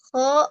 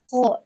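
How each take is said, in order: First: The vowel is said with unrounded, relaxed lips. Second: The vowel is said with rounded, pouted lips. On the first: The speaker calls it right. "tidak boleh monyong" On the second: The speaker calls it wrong. "tidak boleh yang seperti itu"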